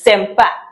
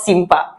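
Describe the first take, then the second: First: The first vowel sounds like 'eh'. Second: The first vowel sounds like 'ee'. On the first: The speaker calls it right. "It is sempa" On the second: The speaker calls it wrong. "it's not simpa"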